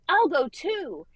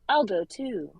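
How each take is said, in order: First: It is said with lively, excited energy. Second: It is said in a flat, monotone voice. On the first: The speaker calls it right. "like he's excited" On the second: The speaker calls it wrong. "really monotone"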